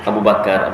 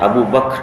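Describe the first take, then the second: First: The last word has two syllables with vowel inserted. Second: The last word is one syllable, no middle vowel. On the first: This is how Malay speakers say it. "kita susah nyebut Abu Bakar" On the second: This is the original Arabic form. "asal bahasa Arabnya Bakr"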